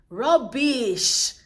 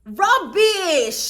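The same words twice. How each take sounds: First: Flat dismissive rubbish. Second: Louder, higher rubbish through a laugh. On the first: Brushing off Aaliyah's story with a flat, dismissive word. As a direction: dismiss it plainly. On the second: Repeating her verdict on Aaliyah's story, louder and laughing. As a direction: laugh the word out. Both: Real, not acted.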